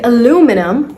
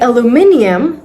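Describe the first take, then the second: First: It is said in an American pronunciation. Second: It is said in a British pronunciation. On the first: "that's American English" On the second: "that's British English"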